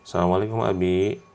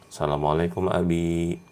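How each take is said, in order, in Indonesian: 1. Salam itu diucapkan dengan cepat dan tidak sabar. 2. Salam itu diucapkan dengan pelan dan tenang. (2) "penuh dengan ketenangan"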